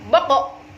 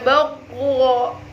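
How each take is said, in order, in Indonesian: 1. Pantulan terakhir cepat dan tiba-tiba. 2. Pantulan terakhir panjang, tidak cepat. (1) "Harus secara spontan" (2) "Tidak boleh boko, boko, ya, tidak boleh"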